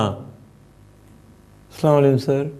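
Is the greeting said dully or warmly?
dully. The greeting sounds flat and unenthusiastic.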